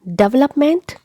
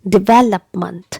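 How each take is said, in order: First: The stress is on the first syllable. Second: The stress is on the second syllable. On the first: The speaker calls it wrong. "It's again incorrect pronunciation" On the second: The speaker calls it right. "the stress is given on the second syllable"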